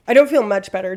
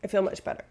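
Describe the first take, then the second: First: Louder, punching don't in "I don't feel much better"; louder correction. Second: Said in the usual way. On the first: Real, not acted. Correcting her own claim, a louder don't in "I don't feel much better".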